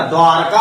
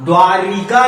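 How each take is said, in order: First: द्वारका with no vowel after r; corrected pronunciation. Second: द्वारिका in three syllables with "ri"; rejected pronunciation. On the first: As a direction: say द्वारका as "dwaar-kaa". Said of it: "द्वारका होता है". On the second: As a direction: say द्वारिका as "dwaa-ri-kaa". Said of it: "द्वारिका नहीं होता". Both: Shown as a demonstration.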